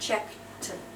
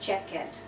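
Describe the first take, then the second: First: The ending sounds like an unvoiced T. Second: The ending sounds like a voiced D. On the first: The speaker calls it right. "We say t at the end" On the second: The speaker calls it wrong. "it is never, ever"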